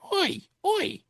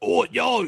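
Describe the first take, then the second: First: It is said in a soft, gentle voice. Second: It is said in a gruff hooligan voice.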